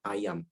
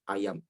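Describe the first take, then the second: Both takes have the same delivery.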